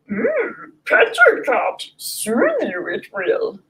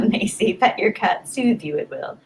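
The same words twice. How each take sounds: First: High, strained little Jedi master voice, slow at the end; Yoda voice. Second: Said in the usual way. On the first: Shown as a demonstration. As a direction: do a squeaky Yoda with a hum first. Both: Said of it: "I'm gonna say that in a Yoda voice".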